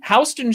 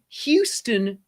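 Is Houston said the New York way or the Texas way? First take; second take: New York; Texas. First: The name is said the New York City way. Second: The name is said the Texas way. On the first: "Houston Street in New York City" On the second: "Houston, Texas"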